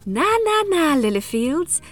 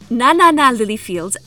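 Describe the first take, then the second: First: It is said in a Cinderella voice. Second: It is said in her normal voice.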